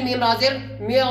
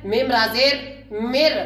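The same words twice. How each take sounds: First: म्यो with a full, thick R sound, the wrong way; wrong heavy reading. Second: मिर with a thin, light R and a clear i, drawn out slowly; correct light reading. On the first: Teacher demonstrating the wrong thick reading to students. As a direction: show the mistake: म्यो said heavy and rounded. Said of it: "ऐसे नहीं पढ़ना है". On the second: Teacher showing students the correct light reading. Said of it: "तो पढ़ना कैसे है?". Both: Shown as a demonstration.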